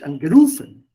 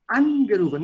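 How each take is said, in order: First: AngeRUfen, loud with stress on RU; mock-wrong stress on RU in angerufen. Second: ANgerufen, higher and louder on AN; right stress on AN. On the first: (falsche Betonung auf RU in angerufen) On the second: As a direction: hit AN in Angerufen. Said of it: "nicht angerufen". (richtige Betonung auf AN in Angerufen) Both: Shown as a demonstration.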